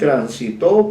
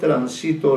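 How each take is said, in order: First: The stress is on the third syllable. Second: The stress is on the second syllable. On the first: It is a past-tense verb, third person. "en un tercer caso es aguda" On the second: It is a present-tense verb, first person. "en otro caso es grave"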